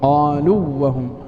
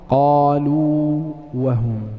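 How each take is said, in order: First: The long vowel merges into the following w. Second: The long vowel is held fully before the w. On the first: The speaker calls it wrong. "فمن الخطأ أن نقول" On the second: The speaker calls it right. "أعط الواو حقها"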